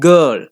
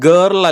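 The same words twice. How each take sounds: First: The vowel is a long schwa. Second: The vowel is not a long schwa. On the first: The speaker calls it right. "long a or a long burp" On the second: The speaker calls it wrong. "girl അല്ല"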